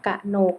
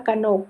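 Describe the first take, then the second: First: กะหนก split as กะ-หนก; syllable-by-syllable reading. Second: Said in the usual way. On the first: Shown as a demonstration. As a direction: sound out กะหนก, separating both syllables. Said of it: "อ่านว่ากะหนก". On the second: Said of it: "คำว่ากนก".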